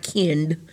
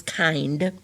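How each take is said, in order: First: Kind said with a short i, like kinned; wrong short i. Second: Kind said with a long i, like kined; correct long i. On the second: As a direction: read kind properly with a long i. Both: Shown as a demonstration. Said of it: "This is a long I".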